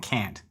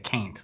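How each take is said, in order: First: The vowel is a plain short 'a' sound. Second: The vowel is a drawled 'ay' sound. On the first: This is the standard way to say it. "instead of saying can't" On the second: This is how a very country friend said it. "would say Caint"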